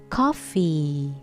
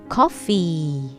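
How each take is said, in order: No difference in how they are said.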